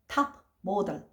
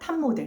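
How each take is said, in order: First: The p is released as a stop before m. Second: The p turns into a nasal m sound. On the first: "외파를 시키면서" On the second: "이렇게 발음을 하는 거죠. 콩글리시가 됩니다"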